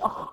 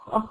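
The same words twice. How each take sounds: First: The kh sound is choked and strangled. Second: The kh sound flows out with free airflow. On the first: The speaker calls it wrong. "فما ينفعش ان انت تخنقيه" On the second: The speaker calls it right. "شايف الصوت يجري منك"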